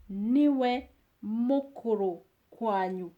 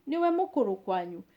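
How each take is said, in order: First: Slow model. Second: Quick natural run. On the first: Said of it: "teacher repeats slowly then fast". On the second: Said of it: "fast repeat". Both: Shown as a demonstration.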